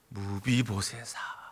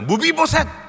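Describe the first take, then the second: First: The name is called gently with a warm resonance. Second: The name is called out sharply and harshly.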